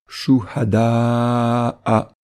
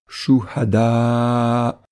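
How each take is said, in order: First: The word is said in its full connected form. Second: The word is said in its shortened pausal form. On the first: The reciter continues into the next word. "sans faire de pause" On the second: The reciter stops after this word. "comme si on faisait une pause"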